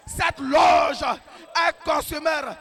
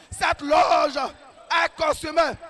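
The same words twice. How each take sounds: The two takes are said the same way.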